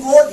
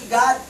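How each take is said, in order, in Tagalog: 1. Ang patinig ay bilugang 'oo' na tunog. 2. Ang patinig ay bukas na 'ah' na tunog. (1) "Dapat basahin yan good" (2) "hindi God"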